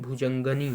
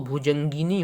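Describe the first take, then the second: First: No vowel follows the 'g' sound. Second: An 'i' vowel follows the 'g' sound. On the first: The speaker calls it wrong. "ना कि भुजंगनी होता है" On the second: The speaker calls it right. "भुजंगिनी होता है"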